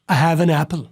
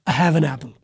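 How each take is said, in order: The two takes are said the same way.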